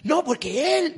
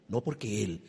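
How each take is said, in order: First: "No, porque él" thrown out high and loud in a whiny tone; mocking wife's excuse. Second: Said in the usual way. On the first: Preacher imitating a wife blaming her husband, high whiny mimicry.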